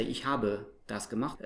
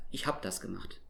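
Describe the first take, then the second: First: "habe" in two syllables, final schwa sounded; full E. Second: "hab" in one syllable, ending like "hap"; dropped E. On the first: Teacher showing what colloquial German avoids, full vowel. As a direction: say "Ich habe das gemacht" with "ha-buh" complete. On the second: Teacher showing colloquial German, E dropped. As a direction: say "Ich hab das gemacht" with no schwa after hab. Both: Shown as a demonstration. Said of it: "Again, the E's dropped".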